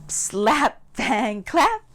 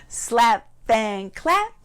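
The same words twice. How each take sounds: No difference in how they are said.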